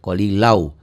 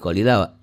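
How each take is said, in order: First: The word ends gliding into a w-sound. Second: The word ends on a long open vowel. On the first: The reading continues into the next word. "kalau disambung jadi idgham bi gunnah" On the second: The reading stops at this word. "kalau dihentikan jadi qalila"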